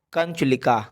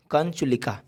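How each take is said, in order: Both takes have the same delivery.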